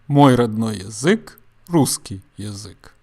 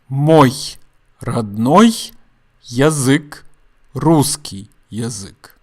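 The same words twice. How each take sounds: First: The sentence is said quickly and smoothly. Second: The sentence is said slowly and carefully.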